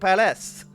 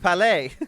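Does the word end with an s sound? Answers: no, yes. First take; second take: yes; no. First: The word ends with an s sound. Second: The word ends in a vowel, no s sound. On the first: The speaker calls it wrong. "I've been saying it wrong" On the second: The speaker calls it right. "It's Palais"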